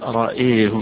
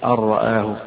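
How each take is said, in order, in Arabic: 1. الثاني وحده مُمالٌ نحو e. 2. كلاهما صوت a مفتوح. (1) "وحيميل الهمزة لوحدها" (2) "بالفتح"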